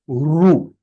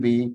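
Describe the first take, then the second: First: The vowel is sounded like ru. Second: The vowel is sounded like ri. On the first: The speaker calls it right. "It is pronounced as ru" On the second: The speaker calls it wrong. "they have been always learning as"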